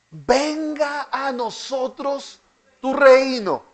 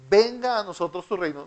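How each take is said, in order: First: Slow, higher plea of Venga a nosotros tu reino; drawn-out plea. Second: Said in the usual way. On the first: Shown as a demonstration. Teacher voicing the prayer's cry to the class, slow and raised. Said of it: "¿Cuál es el clamor?". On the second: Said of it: "me gusta esta expresión".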